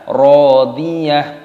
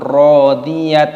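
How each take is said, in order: First: The word ends in a soft h sound. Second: The word ends in a clipped t sound. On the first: The speaker calls it right. "maka dibaca rodiyah" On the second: The speaker calls it wrong. "ataupun rodiyat"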